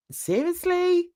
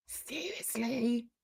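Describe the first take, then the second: First: Pitched way up in disbelief; a high, stunned seriously?; incredulous. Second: Much softer and slow, dropped flat under the breath; deadpan disbelief. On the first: Disbelief at his politics plan. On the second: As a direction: let Seriously? sink quietly and slowly. Repeats the word in disbelief. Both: Real, not acted.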